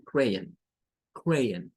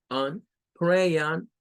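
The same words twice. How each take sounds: First: Crayon, the end softened; crayon with schwa. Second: Crayon ending on a full on; crayon, last syllable like Spanish on; first way to say crayon; crayon with clear on. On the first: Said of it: "muy suave al final". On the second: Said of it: "hay personas que nos van a decir". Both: Shown as a demonstration.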